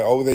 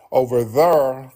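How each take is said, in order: First: Said in the usual way. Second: "there" said as "thurr"; Memphis intrusive R. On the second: Shown as a demonstration. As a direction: drag "there" into a slow R-heavy "thurr". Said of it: "I told people about them river accents".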